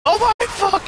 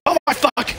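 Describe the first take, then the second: First: High, loud panicked shriek; shrieking shout. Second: Loud startled yell; shocked shout. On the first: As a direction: shriek it even higher in alarm. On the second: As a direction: blurt it out in shock. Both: Real, not acted.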